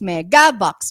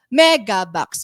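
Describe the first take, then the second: First: The emphasis is on the second syllable. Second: The emphasis is on the first syllable. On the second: "So first"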